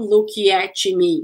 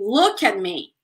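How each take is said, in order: First: The words are broken apart separately. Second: The words flow together without breaks.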